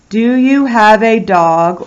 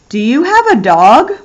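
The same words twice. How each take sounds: First: It is said flatly, like a statement. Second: It is said with a questioning tune.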